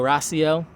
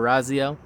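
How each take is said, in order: First: The middle consonant is a hissing S sound. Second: The middle consonant is a buzzing Z sound. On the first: "I'm just gonna keep it a Samek instead of a Zayin" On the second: "instead of a Zayin"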